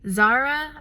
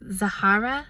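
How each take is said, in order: First: The name is said the common, shortened way. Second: The name is said the fuller Arabic way. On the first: This is how most people will say it. "I think that's what most people are going to be saying" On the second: This follows the name's Arabic origin. "it's Arabic, so it's pronounced like Zahara"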